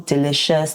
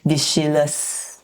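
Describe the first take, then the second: First: The sounds come in their usual order. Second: The consonant sounds are swapped around. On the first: The speaker calls it right. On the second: The speaker calls it wrong.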